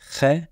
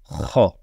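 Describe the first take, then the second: First: The kh sound is light, with a thin vowel. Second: The kh sound is heavy, with a deep vowel. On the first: The speaker calls it wrong. "on ne dit pas khe" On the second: The speaker calls it right. "La lettre est une lettre grave, mais plutôt kha"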